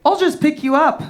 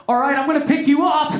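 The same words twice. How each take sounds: First: Mock-casual calm offer; imitating an unbothered girlfriend. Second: Lightly acted announcement, pitched up; mock effortful warning before a lift; imagined girlfriend. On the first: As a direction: say it evenly, as if lifting someone is nothing. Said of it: "She very calmly was like". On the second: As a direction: put on a higher voice for the girlfriend. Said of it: "she wasn't like".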